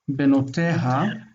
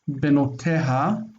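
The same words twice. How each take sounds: Both takes have the same delivery.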